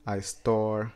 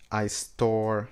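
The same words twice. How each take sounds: The two takes are said the same way.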